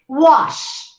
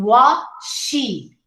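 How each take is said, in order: First: It ends cleanly on the final consonant. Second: An extra vowel follows the final consonant. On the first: The speaker calls it right. "we say wash" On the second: The speaker calls it wrong. "instead of saying wa, she. See? Two syllables"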